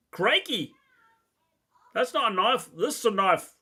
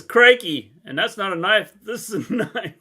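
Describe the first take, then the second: First: Lightly put-on Australian accent; mock Australian accent. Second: Hammed-up Crocodile Dundee Aussie line; a lightly put-on Australian twang; loud mock Australian quote; mock Australian accent. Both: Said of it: "great accent there".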